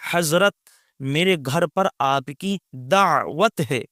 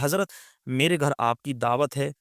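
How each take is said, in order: First: Each sound is articulated fully and carefully. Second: The sounds are spoken in an everyday casual accent. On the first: "इस तरीके से तलफ़ुज़ निकाल करके बोले" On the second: "एक अलग लहजे में बोलेगा"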